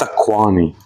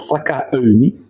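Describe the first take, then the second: First: The middle is said as a gliding 'kwa' sound. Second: The middle is said as separate 'ka-o' sounds. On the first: The speaker calls it right. "it's Sakwani" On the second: The speaker calls it wrong. "so it's not Sakaoni"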